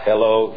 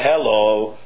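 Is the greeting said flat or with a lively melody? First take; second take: flat; lively melody. First: The greeting is said on a flat pitch. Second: The greeting is said with a moving melody.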